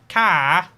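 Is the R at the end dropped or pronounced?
dropped. The final R sound is dropped. "British people say car like car"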